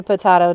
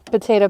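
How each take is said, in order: First: Potato said as puh-TAH-toh; alternative pronunciation. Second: Said in the usual way. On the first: Shown as a demonstration. She answers the name tease, potato said puh-TAH-toh. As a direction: say potato with AH for the middle vowel.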